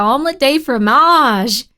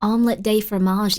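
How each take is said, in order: First: Mock-French, louder, slow and drawn out on "fromage"; showy mock-French delivery; playful French flourish. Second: Said in the usual way. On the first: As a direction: stretch "fromage" with hammed-up French flair. Repeats French phrase with more flourish.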